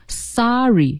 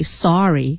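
First: "sorry" as sah-ree, R only in the second syllable; no linking R. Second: "sorry" with an R ending the first syllable; sor-ry with R in both syllables; R-coloured first vowel in "sorry"; linked R. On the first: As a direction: open first vowel, then "ree". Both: Shown as a demonstration. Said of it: "那它怎么就不能读成sorry".

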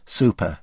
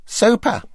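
First: Said in the usual way. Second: High, emphatic super; David Frost impression. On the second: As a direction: sing it out like Frost. The speaker's enthusiastic echo.

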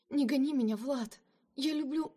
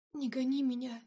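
First: Desperate plea. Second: Moaning plea. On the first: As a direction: beg him not to send her away. Lina begs Vlad not to leave. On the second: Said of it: "простонала она". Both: A narrator's reading.

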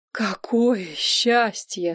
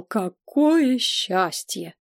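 First: Slow, savoured joy; slowly savoured happiness; overjoyed relief. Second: Slower, lingering on "Какое"; lingering whispered-happy "Какое счастье"; overjoyed relief. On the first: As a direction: draw out the relief. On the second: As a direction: repeat it, still slower and lingering. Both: A narrator's reading. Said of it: "сказал посол".

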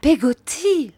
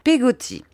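First: High, lightly surprised answer; questioning answer. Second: Short, high, indignant repeat; touch of indignation. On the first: Mother names her servant to Miss Betsy, high-voiced. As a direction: say Peggotty high, then let it fall. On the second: Miss Betsy repeats the servant's name, faintly indignant. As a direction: echo Peggotty with mild disapproval. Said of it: "avec une nuance d'indignation". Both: A narrator's reading.

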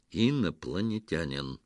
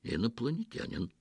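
First: A mildly sterner repeat. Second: Said in the usual way. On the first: Acted. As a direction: repeat it more sternly, losing patience. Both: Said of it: "повторил Петро ещё суровее".

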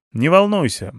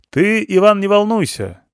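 First: Said in the usual way. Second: Loud, high reassurance; talking louder to the blind. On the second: Acted. Rescuer to blinded Ivan, loudly reassuring. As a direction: say it loud as if he were deaf. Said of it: "стали разговаривать громче".

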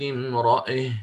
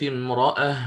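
First: امرأة ending leaned toward e; with imala. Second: امرأة ended on a plain open a; with fatha. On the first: Teacher showing the second way, imala, on امرأة. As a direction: stop on امرأة with the vowel bent toward e. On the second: Teacher showing the first way, fatha, on امرأة. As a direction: stop on امرأة with the open vowel. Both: Shown as a demonstration. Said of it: "فأقف بوجهين، بالفتح والإمالة".

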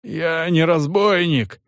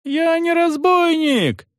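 First: Hoarse. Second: Much higher, slow, drawn-out yell of denial; desperate yell. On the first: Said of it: "хрипло произнёс мужик". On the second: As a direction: howl it out in despair. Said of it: "заорал мужик". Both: A narrator's reading.

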